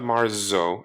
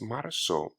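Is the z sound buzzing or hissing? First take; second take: buzzing; hissing. First: The z is a buzzing English z sound. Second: The z is a hissing s-like sound. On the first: The speaker calls it wrong. "It's not marzo" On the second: The speaker calls it right. "Imagine there's an S in there"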